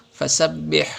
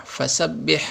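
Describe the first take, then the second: The two takes are said the same way.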